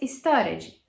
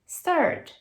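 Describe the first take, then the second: First: The ending is said as an extra syllable. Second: The word ends with just a d sound. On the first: The speaker calls it wrong. "Nunca mais" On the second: The speaker calls it right. "Só um Dzinho no final"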